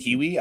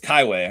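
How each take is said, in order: First: The name is said like 'kee-wee'. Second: The name is said like 'kai-way'. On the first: This is the casual name they choose to use. "let's just go with Kiwi" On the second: This is thought to be the real pronunciation. "it's Kaiway"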